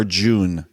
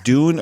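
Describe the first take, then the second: First: "June" with a J at the start, drawn out; deliberate "June", clear J onset; J sound. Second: "Dune" with a hard D, drawn out; deliberate "Dune", no J sound. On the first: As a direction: say "June" slowly, starting like "jog". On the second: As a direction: say "Dune" slowly, starting on a clean D like "doon". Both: Shown as a demonstration. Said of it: "Two different things".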